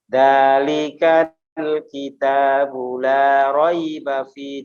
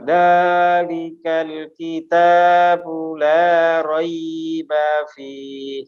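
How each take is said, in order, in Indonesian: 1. Vokal panjang ditahan lebih singkat. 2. Vokal panjang diucapkan terlalu lama.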